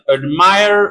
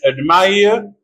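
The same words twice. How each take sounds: First: It is said in an American accent. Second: It is said in a British accent.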